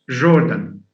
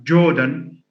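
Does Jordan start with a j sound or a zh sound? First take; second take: zh; j. First: It begins with the fricative zh sound. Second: It begins with the affricate j sound.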